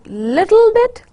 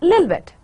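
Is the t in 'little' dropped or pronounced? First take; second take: pronounced; dropped. First: The t in the middle is lightly pronounced. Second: The t is dropped, replaced by a glottal stop. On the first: "little with a very little slight touch on t sound" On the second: "when it becomes Cockney, it'll become lil bit"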